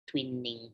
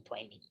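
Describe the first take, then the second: First: Soft "twee-ning" for Twining; first pronunciation variant. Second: Very soft, low "TWY-ning" for Twining; second pronunciation variant. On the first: Teacher unsure of the governor's name, Twining as "twee-ning". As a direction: say Twining with an ee, tossed off softly. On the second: Teacher offering the other option, Twining as "TWY-ning". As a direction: say Twining with a long i, dropping away. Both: Shown as a demonstration. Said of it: "I really don't know how to pronounce it".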